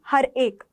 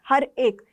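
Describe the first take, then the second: Both takes have the same delivery.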